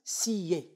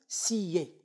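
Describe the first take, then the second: First: The two vowels are split into two syllables. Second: The two vowels are split into two syllables.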